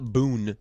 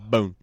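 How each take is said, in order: First: The vowel is a long oo sound. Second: The vowel is a long oh sound. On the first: The speaker calls it wrong. "It's not Boone" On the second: The speaker calls it right. "It's Bone"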